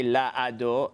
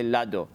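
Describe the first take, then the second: First: La ado with the a under the aleph sounded; wrong pronunciation shown. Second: Lado run together with the aleph silent; right pronunciation shown. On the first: Teacher shows how the aleph is wrongly pronounced. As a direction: say la ado with both vowels. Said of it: "I don't say the a under the". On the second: Teacher shows the correct silent aleph. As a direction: blend it into lado. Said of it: "I say lado". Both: Shown as a demonstration.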